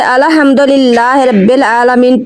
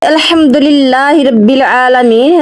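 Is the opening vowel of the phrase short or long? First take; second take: long; short. First: The opening 'al' is stretched into a long 'ala'. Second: The opening 'al' is said with a short vowel. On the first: Beware, praise belongs to God. The speaker calls it wrong. "ऐसे पढ़ना बहुत ही गलत है" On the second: All praise belongs to God. The speaker calls it right. "अल का तर्जुमा है सब या तमाम"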